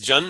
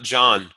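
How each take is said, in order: First: The vowel is short, like in 'fun'. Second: The vowel is open, like in 'John'. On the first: The speaker calls it right. "is Jun" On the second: The speaker calls it wrong. "not John"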